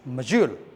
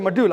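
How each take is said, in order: First: The middle consonant sounds like j in jaw. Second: The middle consonant sounds like a plain d. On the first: The speaker calls it right. "I should say module" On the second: The speaker calls it wrong. "I shouldn't say module"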